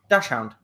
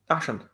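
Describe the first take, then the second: First: The word ends with the sound 'hound'. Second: The word ends with the sound 'hund'. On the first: The speaker calls it wrong. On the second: The speaker calls it right.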